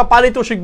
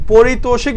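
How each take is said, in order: First: First vowel as open 'pa': 'paritoshik'; preferred pronunciation. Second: First vowel as 'po': 'poritoshik'; alternate pronunciation. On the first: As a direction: say পারিতোষিক as 'pa-ri-to-shik'. (পারিতোষিক, প্রথমে স্পষ্ট 'পা' উচ্চারণে) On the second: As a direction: say পারিতোষিক as 'po-ri-to-shik'. ('পরিতোষিক' উচ্চারণে, প্রথমে 'প') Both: Shown as a demonstration. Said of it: "বা পারিতোষিক বলি".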